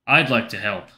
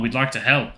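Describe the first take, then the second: First: Slightly lowered, confiding offer. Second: Said in the usual way. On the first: A narrator's reading. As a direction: lower it a touch, as if into a door crack. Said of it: "I lower my voice and lean into the crack". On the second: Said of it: "I lower my voice".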